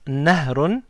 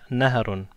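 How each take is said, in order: First: No vowel is heard between h and r. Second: A short a vowel follows the h. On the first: The speaker calls it wrong. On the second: The speaker calls it right.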